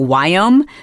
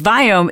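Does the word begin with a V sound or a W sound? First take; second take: W sound; V sound. First: The word begins with a W sound. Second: The word begins with a V sound.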